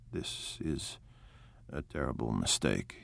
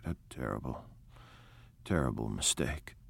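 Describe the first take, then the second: First: Whispered and much lower, "terrible" weighed down; a low secret confession of dread; hushed dismay. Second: Hushed despair. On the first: Gatsby hushed in the kitchen. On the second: Gatsby repeats, shaking his head. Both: A narrator's reading.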